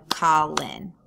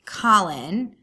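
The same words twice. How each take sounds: First: Colin broken into two separate beats, Col-in; sounded out by syllables. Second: Said in the usual way. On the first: Shown as a demonstration. Teacher showing students how to count syllables, Colin sounded out. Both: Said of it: "sounded this out by going".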